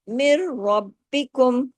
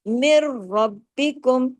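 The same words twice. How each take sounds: No difference in how they are said.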